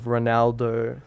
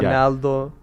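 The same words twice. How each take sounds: First: It starts with an R sound. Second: It starts with an H-like sound, Brazilian style.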